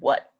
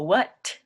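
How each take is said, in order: First: The final T is held back, not released. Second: The final T is clearly released. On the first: The speaker calls it right. "they kind of just put their tongue behind their teeth. They go" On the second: The speaker calls it wrong. "They don't go"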